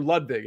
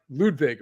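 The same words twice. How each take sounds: First: "Ludwig" with a shorter first vowel; alternative pronunciation. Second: "Ludwig" with a long oo and a V; first pronunciation. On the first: Podcaster offering another guess at a golfer's first name, "Ludwig" as LUD-vig. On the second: Podcaster guessing at a golfer's first name, "Ludwig" as LOOD-vig. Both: Shown as a demonstration. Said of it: "whatever proper pronunciation it is there".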